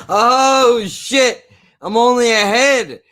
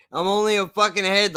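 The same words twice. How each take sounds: First: High, loud hammed-up horror; mock shocked shriek. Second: Deadpan repeat. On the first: Mocking the movie's twist with a loud, high fake shriek. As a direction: scream in fake shock at the severed head. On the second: Acted. Repeating his own joke to the viewers, now deadpan. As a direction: drop the shock and say it dry. Repeats the gag more calmly.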